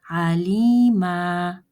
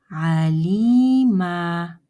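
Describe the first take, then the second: Both takes have the same delivery.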